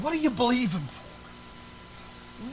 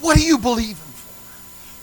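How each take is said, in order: First: High, softer, drawn-out question; soft, slow question. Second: High, loud, drawn-out question; loud, slow challenge. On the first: Preacher puts a searching question to the church, softly. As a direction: ask it slowly and softly. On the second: Preacher repeats his question to the church, forcefully. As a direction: press the question home loudly. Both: Real, not acted.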